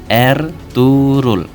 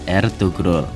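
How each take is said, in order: First: The g is silent and the vowel lengthened. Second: A clear g sound is pronounced in the middle. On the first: The speaker calls it right. "Huruf G yang bertopi dalam bahasa Turki tidak dibaca, namun hanya sedikit menambah panjang huruf sebelumnya" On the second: The speaker calls it wrong.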